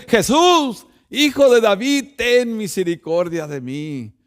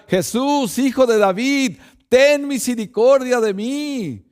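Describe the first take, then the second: First: Louder, higher desperate cry, fading on the last words. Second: Raised, higher plea calling to Jesús; blind man crying out. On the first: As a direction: shout it even harder over the crowd. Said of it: "se levantó más fuerte". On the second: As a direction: call out to him for mercy. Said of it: "y gritó". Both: Retold or imitated.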